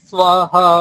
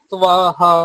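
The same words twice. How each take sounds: Both takes have the same delivery.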